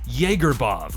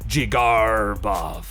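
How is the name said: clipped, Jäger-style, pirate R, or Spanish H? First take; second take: Jäger-style; pirate R. First: The first part sounds like Jäger. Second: The R is drawn out like a pirate. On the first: "Some people say Jaegerbov like Jägermeister" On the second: "short jig, long R like a pirate, short bov"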